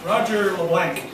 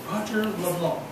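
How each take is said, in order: First: The name is said with an American pronunciation. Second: The name is said with a French pronunciation. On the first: Friends from the US say the name this way. "they pride themselves in commenting on Roger's name as" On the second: This is how the owner says his name. "It's Roger LeBlanc, right?"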